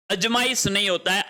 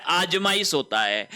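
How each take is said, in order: First: अजमाइश with a short अ, brisk; wrong spelling अजमाइश read quickly; short a in ajmaish. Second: आजमाइश with a long आ at the start; long aa in aajmaish. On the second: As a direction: lean on the आ of आजमाइश. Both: Shown as a demonstration.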